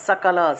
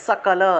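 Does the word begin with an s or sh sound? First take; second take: s; s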